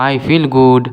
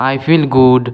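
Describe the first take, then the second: No difference in how they are said.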